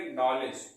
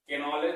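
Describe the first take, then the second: First: नॉलेज with a silent K; नॉलेज, no "ke" before the N; right pronunciation. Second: के नॉलेज with the K sounded as "ke"; mispronounced के नॉलेज, silent K spoken aloud; wrong pronunciation. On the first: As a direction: say नॉलेज, starting straight on the N. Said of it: "इसको क्या पढ़ेंगे". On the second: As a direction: say के नॉलेज, an extra syllable before the N. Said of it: "भी नहीं है". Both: Shown as a demonstration.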